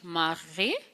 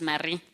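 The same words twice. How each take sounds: First: The name is said with a French accent. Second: The name is said with an English accent. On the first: This is how it is said in France. "proper French accent" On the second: This is how locals in South Africa say it. "for all of us"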